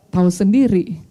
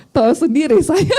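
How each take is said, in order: First: Said in the usual way. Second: Higher voice breaking into real laughter; laughing. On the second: Real, not acted. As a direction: say it and crack up. Laughs at own hot temper. (sambil tertawa lepas)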